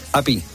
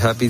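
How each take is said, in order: First: The word begins directly with the vowel, no h. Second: The word begins with an audible breathy h. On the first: "la H la quitan totalmente" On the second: "en vez de decir happy"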